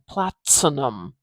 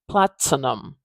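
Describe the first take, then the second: First: The T is released with a clear burst. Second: The T is released with a clear burst.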